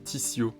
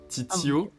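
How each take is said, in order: First: The middle consonant is an S sound. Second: The middle consonant is a T sound. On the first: "tu le prononces S" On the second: "avec le deuxième T que tu prononces T"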